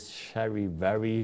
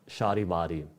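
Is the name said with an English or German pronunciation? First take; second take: English; German. First: The name is said with English pronunciation. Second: The name is said with German pronunciation. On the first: "the English pronunciation is" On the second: "the German pronunciation is"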